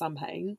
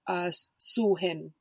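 First: The word is pronounced the way it is spelled. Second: The word is pronounced in the Gaelic way. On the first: The speaker calls it wrong. "it's not pronounced Samhain" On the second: The speaker calls it right. "it's pronounced Sulhin"

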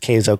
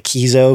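First: The first syllable sounds like 'kay'. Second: The first syllable sounds like 'key'. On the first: The speaker calls it right. "pronounced Keizo, K-A-Y-Z-O is the pronunciation" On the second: The speaker calls it wrong. "people are going to mispronounce it and say Keizo because, K-E-I, Keith"

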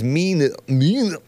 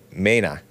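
First: The name is said with an English pronunciation. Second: The name is said with a Spanish pronunciation. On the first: The speaker calls it right. "I think it's Mena" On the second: The speaker calls it wrong. "as if it's pronounced in Spanish"

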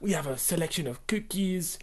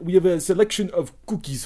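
First: It is said in a put-on French accent. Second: It is said in a put-on Turkish accent. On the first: The speaker calls it wrong. "No, they didn't use a French accent" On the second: The speaker calls it right. "Turkish accent"

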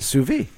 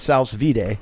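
First: The word ends without a D sound. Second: The word ends with a clear D sound. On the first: The speaker calls it right. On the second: The speaker calls it wrong. "Not a sous vide"

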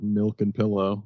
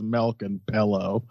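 First: The vowels have a neutral accent. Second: The vowels have a Midwestern accent. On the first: This is the usual way to say it. "instead of milk and pillow" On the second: This is how someone else says it. "She says milk and pillow"

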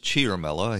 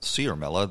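First: The first consonant has an h sound. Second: The first consonant has no h sound. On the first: The speaker calls it right. "where the H sound comes from, but I'll take everybody's word for it" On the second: The speaker calls it wrong. "I've been pronouncing it Ciaramella"

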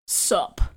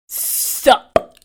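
First: It is said softly and casually. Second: It is said sharply and forcefully.

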